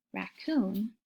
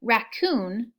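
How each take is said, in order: First: Raccoon softer, broken into rac and coon; syllables split. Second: Said in the usual way. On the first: Shown as a demonstration. Teacher showing kids the two parts of raccoon. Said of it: "two parts". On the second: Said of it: "Some words like".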